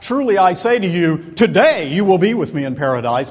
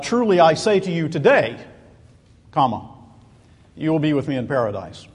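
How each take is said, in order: First: The pause comes before the word today. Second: The pause comes after the word today.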